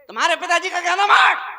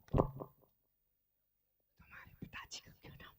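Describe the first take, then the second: First: It is said very loudly. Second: It is said at a normal, quiet volume.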